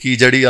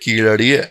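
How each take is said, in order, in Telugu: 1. మధ్యలో ఉన్న హల్లు J శబ్దం. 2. మధ్యలో ఉన్న హల్లు L లాంటి శబ్దం. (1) "కీజడి అనొద్దన్న" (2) "అది కీళడియే కానీ కొంచెం ఎల్ని అళలాగా ప్రొనౌన్స్ చేస్తారు"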